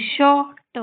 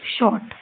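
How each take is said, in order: First: शॉर्ट split slowly into sho, pause, ta; sounded out. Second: Said in the usual way. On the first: Shown as a demonstration. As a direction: say शॉर्ट with the final t apart. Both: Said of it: "इस तरीके से आपको ये सारे शब्द पढ़ने हैं".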